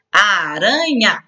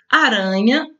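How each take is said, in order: First: "Aranha" drawn out slowly in three syllables. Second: Said in the usual way. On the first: Shown as a demonstration. Teacher showing three syllables to pupils, "Aranha" slowly sounded out. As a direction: stretch each syllable of "Aranha": a, ra, nha. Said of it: "separe as sílabas". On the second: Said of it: "também três sílabas".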